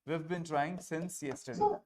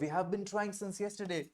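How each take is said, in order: First: 'We have' is contracted to one syllable. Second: 'We have' is said as two full words. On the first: "विव बिन" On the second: "वी हैव को"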